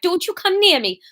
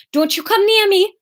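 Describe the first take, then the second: First: Put-on higher, fierce warning in Welsh accent. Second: Put-on high, fierce warning in Newcastle accent. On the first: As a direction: warn him off with a Welsh lilt. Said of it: "can't get back into Welsh". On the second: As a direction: warn him off, slipping into Geordie. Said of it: "No, that's still Newcastle".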